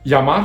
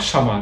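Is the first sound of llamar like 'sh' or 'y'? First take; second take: y; sh. First: The word begins with a 'y' sound. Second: The word begins with an 'sh' sound.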